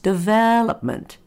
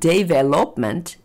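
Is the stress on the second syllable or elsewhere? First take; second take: second; elsewhere. First: The second syllable is stressed and lengthened. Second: The stress falls away from the second syllable. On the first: The speaker calls it right. "the vel is longer than the rest of the word" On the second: The speaker calls it wrong. "So it's not development"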